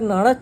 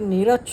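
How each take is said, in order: First: The first vowel is an a sound. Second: The first vowel is an e sound. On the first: The speaker calls it right. "ওটা নাড়াচ্ছ হবে" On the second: The speaker calls it wrong. "ওটা নেড়াচ্ছ না"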